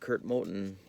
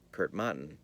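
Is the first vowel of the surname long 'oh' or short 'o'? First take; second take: long oh; short o. First: The surname's first vowel is a long 'oh'. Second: The surname's first vowel is a short 'o'. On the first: The speaker calls it right. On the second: The speaker calls it wrong.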